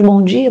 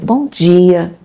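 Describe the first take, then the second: First: It is said flatly and mechanically. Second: It is said warmly and sincerely.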